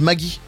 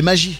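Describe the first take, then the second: First: It is said the way people in Alsace say it. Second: It is said the intended way, as in the jingle. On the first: The speaker calls it wrong. "En Alsace, on dit quoi? On dit Maggie" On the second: The speaker calls it right. "Alors que c'est Magie"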